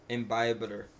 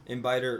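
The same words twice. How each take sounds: First: "Imbibitor" said in full as im-BY-bi-ter; careful repeat of "Imbibitor", every syllable there; corrected pronunciation. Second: Muddled "Imbibitor", syllables swallowed; fumbled pronunciation. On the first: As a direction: sound out both b's in "Imbibitor". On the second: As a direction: stumble on "Imbibitor", dropping the middle b. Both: Real, not acted. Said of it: "I can't say that word right".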